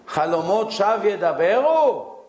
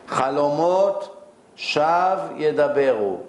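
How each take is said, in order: First: It is said as a question, rising. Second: It is said as a statement, falling.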